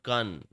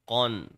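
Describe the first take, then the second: First: The vowel is light and thin. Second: The vowel is heavy and rounded. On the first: The speaker calls it wrong. "Not qan" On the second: The speaker calls it right. "It's qan, the heavy sound"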